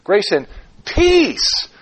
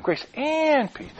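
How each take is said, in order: First: "peace" drawn out high and strong; slow phrase peaking on a long "peace"; stress on PEACE. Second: "and" drawn out high; slow phrase hinging on a long, high "and"; stress on AND. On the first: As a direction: land slowly and firmly on "peace". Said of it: "By emphasizing different words". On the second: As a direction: stretch "and" high, drop softly onto "peace". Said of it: "oh, both of them". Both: Shown as a demonstration.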